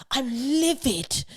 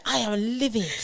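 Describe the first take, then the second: First: Higher, slow, prim posh MP; posh calm fury. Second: Higher, prim posh voice; clipped posh outrage; posh understated fury. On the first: A posh Tory MP declaring his anger, slow and prim. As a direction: say livid as if it's the height of rage. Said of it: "he seems quite calm". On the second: Posh British person doing anger, higher and prim. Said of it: "a posh British person can". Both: Retold or imitated.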